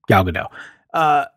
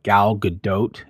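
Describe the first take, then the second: First: The final T sound is left off. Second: The final T sound is clearly pronounced. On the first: "It's just easier for me not to pronounce that T at the end" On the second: "I was corrected by Laura, and apparently it's like"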